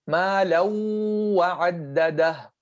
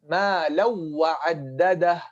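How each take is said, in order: First: The w sound is stressed and held long. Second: The w sound is merged smoothly and briefly. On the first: The speaker calls it wrong. "You're stressing the first wow without any ghunna" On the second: The speaker calls it right. "That's idgham without غنة"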